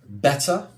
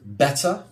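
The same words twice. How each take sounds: First: It is said in a British accent. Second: It is said in a British accent.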